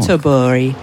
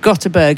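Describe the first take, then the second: First: The name is said with Swedish-style sounds. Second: The name is said with English-style spelling sounds. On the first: The speaker calls it right. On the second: The speaker calls it wrong.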